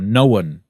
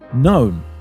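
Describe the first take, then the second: First: An extra schwa vowel comes before the final n. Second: It is said as one syllable without extra vowel.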